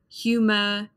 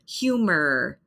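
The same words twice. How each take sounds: First: The final R is not pronounced. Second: The final R is clearly pronounced. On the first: "So the R at the end of the word, you don't hear it" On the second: "The R is there. I pronounce it"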